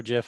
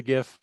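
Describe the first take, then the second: First: "gif" said like "jif"; soft G pronunciation. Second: "gif" with a hard G, as in gift; hard G pronunciation. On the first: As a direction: start "gif" with a soft J sound. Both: Shown as a demonstration. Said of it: "however you say it".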